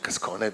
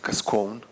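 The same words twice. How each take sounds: First: The name is said with an Italian pronunciation. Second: The name is said with an American pronunciation. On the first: The speaker calls it right. "it's actually Cascone because it's an Italian surname" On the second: The speaker calls it wrong. "Americans probably pronounce it Cascone"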